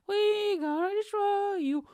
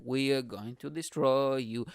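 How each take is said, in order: First: Very high, drawn-out sing-song threat; cartoonishly high mock menace; mock media threat. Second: Slow, measured threat at usual pitch; drawn-out mock menace; mock media threat. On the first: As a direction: squeal the threat slowly, hammed-up. Voices media attack, exaggerated second take. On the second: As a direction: spell out the threat slowly. Voices media attack, first take.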